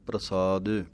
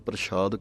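First: It starts with a tight pr cluster and plain s. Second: The middle consonant is a sh sound. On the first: The speaker calls it right. "ਸਸੇ ਦੇ ਨਾਲ ਬੋਲਣਾ ਹੈ ਬਿਨਾਂ ਬਿੰਦੀ ਤੋਂ, ... ਪੈਰ ਦੇ ਵਿੱਚ ਰਾਰਾ ਹੈ" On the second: The speaker calls it wrong. "ਇੱਕ ਤਾਂ ਬਿੰਦੀ ਕੋਲੋਂ ਲਾ ਦਿੰਦੇ ਹਾਂ"

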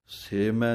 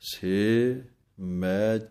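First: The two words are run together without a break. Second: The two words are separated by a short break. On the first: The speaker calls it wrong. "ਸੇ ਮੈਂ ਨਹੀਂ ਕਹਿ ਦੇਣਾ" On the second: The speaker calls it right. "ਇੱਥੇ ਥੋੜ੍ਹਾ ਰੁਕ ਕੇ ਸੇ ਪਾਠ ਵੱਖਰਾ ਪੜ੍ਹਨਾ ਹੈ"

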